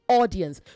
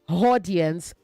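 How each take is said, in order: First: It starts with a vowel, no H. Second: An H sound is added at the start. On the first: The speaker calls it right. "when you mean audience" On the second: The speaker calls it wrong. "don't insert huh where there isn't any H"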